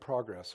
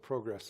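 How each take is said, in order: First: The word is pronounced the American way. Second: The word is pronounced the Canadian way.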